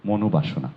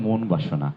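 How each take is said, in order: First: The first part has a final o vowel. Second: The first part ends without a vowel. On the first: The speaker calls it right. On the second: The speaker calls it wrong.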